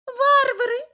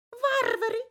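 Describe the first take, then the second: First: Very high and loud cooing, rising; cooing pigeon voice. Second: Very high cooing, falling; cooing pigeon voice. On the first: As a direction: coo it louder, high and outraged. (громкое курлыканье голубей) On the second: (курлыканье голубей) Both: Acted. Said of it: "закурлыкали голуби".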